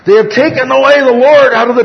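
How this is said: The voice is high-pitched, near falsetto. The speaker calls it right. "a little bit towards the falsetto range"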